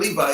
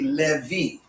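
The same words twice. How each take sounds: First: The name ends with an 'eye' sound. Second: The name ends with an 'ee' sound. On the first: The speaker calls it wrong. "it's not Levi" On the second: The speaker calls it right. "it would be Levi"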